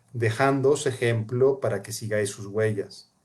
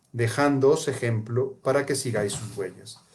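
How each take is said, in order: The two takes are said the same way.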